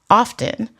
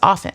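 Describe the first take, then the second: First: The word is said with a T sound. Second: The word is said with no T sound. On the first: The speaker calls it wrong. "people will say often ... stick T's where they don't belong" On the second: The speaker calls it right. "the T is silent. The word is often. Like that's the proper pronunciation"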